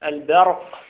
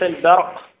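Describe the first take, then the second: Both takes have the same delivery.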